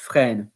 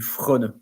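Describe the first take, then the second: First: The first vowel is an open e. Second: The first vowel sounds like an o. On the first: The speaker calls it right. "but it's frêne" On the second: The speaker calls it wrong. "else it will be frône"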